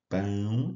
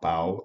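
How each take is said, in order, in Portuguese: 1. A vogal é nasal, pelo nariz. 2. A vogal é oral, não pelo nariz. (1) "esse som é nasal" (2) "não pau"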